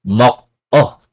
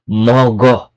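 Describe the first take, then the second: First: The middle consonant is a K sound. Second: The middle consonant is a G sound. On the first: The speaker calls it wrong. "not mok-o" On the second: The speaker calls it right. "nagiging mogo"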